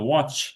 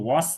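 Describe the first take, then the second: First: The word ends in a ch sound. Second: The word ends in an s sound. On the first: The speaker calls it right. "ওয়াচ, একদম চ হবে" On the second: The speaker calls it wrong. "ওয়াস না"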